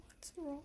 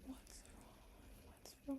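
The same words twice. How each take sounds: First: A mock-concerned voiced "What's wrong?" with a lifted tone; worried people asking. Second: "What's wrong?" whispered, hushed and anxious; whispered worry. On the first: People unsettled by her tears, lightly mock concerned. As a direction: play the fussing friend, lightly. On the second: Retold or imitated. Friends fussing over her tears, whispered concern. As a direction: lean in and hush the question. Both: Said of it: "They're like".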